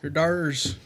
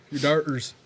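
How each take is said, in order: First: Whispered your daughters. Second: Said in the usual way. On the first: Pretend. Teasing friend about his daughters' case, whispered.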